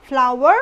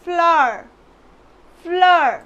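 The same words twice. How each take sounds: First: FLOWER said in two syllables, flaa-war; flower as "flaa-war", w sounded; common mispronunciation. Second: Flower run into one syllable, "flaar"; flower as a loud, falling "flaar"; correct pronunciation. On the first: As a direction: say flower with a clear w glide. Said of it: "but it's not flower". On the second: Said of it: "but it's not flower, it's". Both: Shown as a demonstration.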